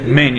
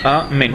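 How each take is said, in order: First: The start of the word is cut off. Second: The whole word is said with every sound. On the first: The speaker calls it wrong. "не сокращать мень" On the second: The speaker calls it right. "говорить целое слово, так чтобы было слышно как цельное слово"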